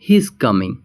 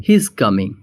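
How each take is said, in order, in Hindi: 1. 'He is' को एक syllable में कॉन्ट्रैक्ट करके बोला जाता है। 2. 'He is' को एक सिलेबल में कॉन्ट्रैक्ट करके बोला जाता है।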